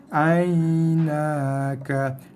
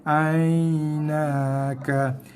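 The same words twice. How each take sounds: The two takes are said the same way.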